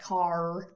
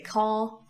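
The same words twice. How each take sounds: First: The final R sound is clearly pronounced. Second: The final R sound is dropped. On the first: "Americans have a rhotic R that they actually pronounce" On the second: "Brits tend to drop the R sound at the ends of words"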